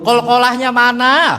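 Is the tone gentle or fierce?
fierce. It is said sharply and angrily.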